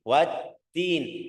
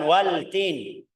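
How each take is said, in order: First: The L merges into a doubled T sound. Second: The L is clearly pronounced before the T. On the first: The speaker calls it right. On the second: The speaker calls it wrong.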